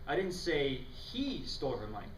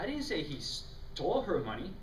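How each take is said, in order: First: The stress falls on the word say. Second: The stress falls on the word stole.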